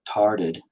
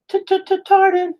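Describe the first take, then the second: First: Said in the usual way. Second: Very high squeaky stutter on T-t-t-tarded; goofy falsetto stutter; silly stutter voice. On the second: Shown as a demonstration. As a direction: stammer the t's in a cartoon squeak. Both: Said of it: "the way that you made it sound".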